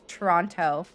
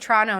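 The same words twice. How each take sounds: First: The middle T sound is clearly pronounced. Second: The middle T sound is dropped. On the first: This is not how locals say it. The speaker calls it wrong. "not Toronto" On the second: This is how locals say it. The speaker calls it right. "we don't say the T in Toronto"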